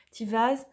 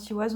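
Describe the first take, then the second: First: "Tivaz" said louder, with a clear V; "Tivaz" with a V in the middle; W pronounced as V. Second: Said in the usual way. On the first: Shown as a demonstration. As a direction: correct yourself to "Tivaz", V rather than W. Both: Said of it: "alors on dit V".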